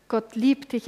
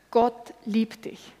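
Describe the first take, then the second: First: Said in the usual way. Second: Slow emphasis. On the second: Shown as a demonstration. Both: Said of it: "Kurzform vom Evangelium".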